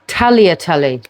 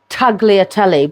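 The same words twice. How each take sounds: First: The G sound is left silent. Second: The G sound is clearly pronounced. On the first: The speaker calls it right. "I think it's tagliatelle" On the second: The speaker calls it wrong. "I call it tagliatelle, but I don't think you pronounce the G"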